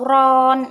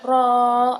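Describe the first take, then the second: First: The syllable ends with an n sound. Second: The vowel is drawn out long with no n. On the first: "atau ron, itu tidak boleh" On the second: "dipanjangkan ro"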